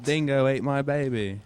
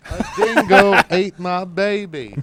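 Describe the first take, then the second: First: Put-on a lightly done Australian accent with a laugh; mock Australian accent. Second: Put-on slower, laughing Australian accent; mock Australian accent. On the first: Friends ask for Australian accents, jokey Australian accent. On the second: Friend answers with a laughing Australian accent. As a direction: drawl it out as a joke Aussie. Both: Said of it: "I wish I could do Australian accents".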